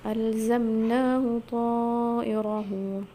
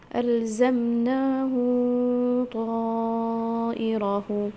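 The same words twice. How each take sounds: First: The pronoun vowel is kept short before the next word. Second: The pronoun vowel is lengthened before the next word. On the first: This follows the reading of the other reciters. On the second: This follows the reading of one reciter.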